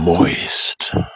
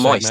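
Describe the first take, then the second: First: The word is said slowly and close up. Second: The word is said at normal speed.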